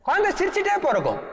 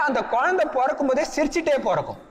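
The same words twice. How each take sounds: First: Higher and faster, குழந்தை lifted with delight; excited emphasis. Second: Said in the usual way. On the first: Real, not acted. Preacher delighting the audience, excited and quick. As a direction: repeat it brightly and quicker, with wonder.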